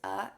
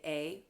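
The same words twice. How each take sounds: First: It is said as a short, reduced vowel. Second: It is said like the letter's name. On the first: The speaker calls it right. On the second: The speaker calls it wrong.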